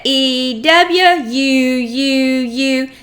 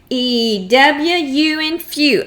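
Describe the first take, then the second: First: E W U U U with each "U" stretched slow; drawn-out sounds. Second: Said in the usual way. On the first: Shown as a demonstration. Teacher modelling sounds for a child, stretched slow chant. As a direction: draw out "U U U" slowly like a chant. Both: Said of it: "let's see if we can say it".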